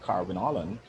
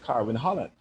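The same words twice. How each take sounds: First: The H at the start of Holland is dropped. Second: The H at the start of Holland is pronounced. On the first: The speaker calls it wrong. "instead of saying" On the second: The speaker calls it right. "I'm trying to say"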